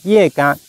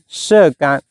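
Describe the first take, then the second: First: The first syllable sounds like 'ye'. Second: The first syllable sounds like 'she'. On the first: This is the plant's official Chinese name. "中文名叫叶肝" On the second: This is how most people commonly read it. "大部分人会读成射肝"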